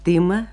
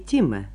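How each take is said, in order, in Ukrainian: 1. Т перед і твердий, не пом'якшений. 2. Т перед і пом'якшений. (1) "Я тима, а не тима" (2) "В этом случае «т» в сочетании с гласным «и» не смягчается"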